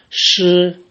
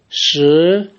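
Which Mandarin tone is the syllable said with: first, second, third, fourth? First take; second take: first; second. First: The pitch stays high and level. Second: The pitch rises from middle to high.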